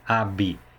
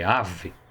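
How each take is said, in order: First: The word ends with a b sound. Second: The word ends with a v sound. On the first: The speaker calls it wrong. "não é bi" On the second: The speaker calls it right. "B H aqui tem som de V"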